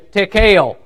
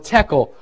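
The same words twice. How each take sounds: First: The word is said in a Southwest Virginia accent. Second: The word is said in a plain accent.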